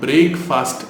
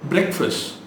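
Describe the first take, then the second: First: It ends with a strongly pronounced 't'. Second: It ends without a strongly pronounced 't'. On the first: The speaker calls it wrong. "பிரேக்ஃபாஸ்ட் அப்படின்னு சொல்லிட்டு இருக்கோம், which is wrong" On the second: The speaker calls it right. "அதை பைட் பண்ணாதீங்க"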